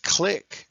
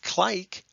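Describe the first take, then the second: First: The I is a short vowel sound. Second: The I is a long vowel sound. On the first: The speaker calls it right. "There's a brev because it's click" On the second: The speaker calls it wrong. "not clike"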